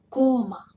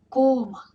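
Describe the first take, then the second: No difference in how they are said.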